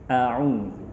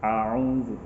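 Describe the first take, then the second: First: The opening sound is a light glottal stop. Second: The opening sound is a throaty, ain-like sound. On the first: The speaker calls it right. "Yang benar adalah a'udzu" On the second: The speaker calls it wrong. "kita sering sekali melafalkannya dengan mirip ain"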